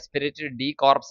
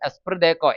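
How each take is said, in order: First: The final 'ps' of corps is pronounced. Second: The final 'ps' of corps is silent. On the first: The speaker calls it wrong. "ശരിക്കും അതിന്റെ ഉച്ചാരണം എസ്പിരിറ്റ് ഡി കോർപ്സ് എന്നൊന്നുമല്ല, പക്ഷെ അതിന്റെ സ്പെല്ലിംഗ് അങ്ങനെയാണ്" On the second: The speaker calls it right. "ഏകദേശം ഉച്ചാരണം അങ്ങനെയാണ്"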